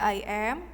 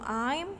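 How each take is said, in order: First: It is said as two full separate words. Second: It is said as one contracted syllable.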